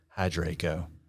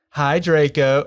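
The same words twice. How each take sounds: First: It is said in a low, depressed tone. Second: It is said in a plain, neutral tone. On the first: The speaker calls it right. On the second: The speaker calls it wrong.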